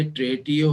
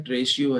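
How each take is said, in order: First: "ट्रेटियो" with a hard t before "io"; उच्चारण का विकल्प. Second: "ट्रेशियो" with "sh" before "io"; दूसरा उच्चारण. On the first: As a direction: say "ट्रेटियो" as tray-tee-oh. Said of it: "अब ये ट्रेटियो है". ("ट्रेटियो", बीच में साफ़ "टि") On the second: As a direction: say "ट्रेशियो" as tray-shee-oh. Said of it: "अब ये ट्रेटियो है, ट्रेशियो है". ("ट्रेशियो", ट की जगह "शि") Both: Shown as a demonstration.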